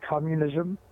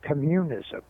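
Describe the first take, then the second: First: The stress is on the first syllable. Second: The stress is on the second syllable. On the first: "When you say communism" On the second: "if you change it to communism, it has a different effect upon people"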